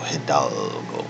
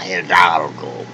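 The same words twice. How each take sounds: First: The word is mumbled quietly in a plain voice. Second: The word is declaimed grandly in a Spanish accent. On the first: "the more I mumbled it" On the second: "just like a conquistador"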